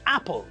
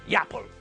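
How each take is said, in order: First: The word begins directly with a vowel sound. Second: The word begins with a y sound. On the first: The speaker calls it right. "We pronounce them normally" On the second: The speaker calls it wrong. "not yapple"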